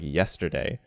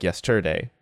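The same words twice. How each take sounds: First: "yesterday" with the first syllable YES stressed. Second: "yesterday" wrongly stressed on the middle syllable TER. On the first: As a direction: lean on YES in "yesterday", let the rest fall away. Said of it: "So that yes part is stressed". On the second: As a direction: punch TER in "yesterday" instead of YES. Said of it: "That ter being stressed". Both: Shown as a demonstration.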